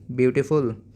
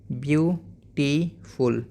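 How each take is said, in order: First: Said in the usual way. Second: beautiful in three slow beats, byu... tee... ful; split into syllables. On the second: Shown as a demonstration. Teacher modelling for pupils, syllable by syllable. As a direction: break beautiful apart, pausing after byu and tee. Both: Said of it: "ऐसे ही".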